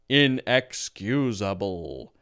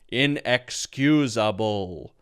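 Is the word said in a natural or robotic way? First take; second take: robotic; robotic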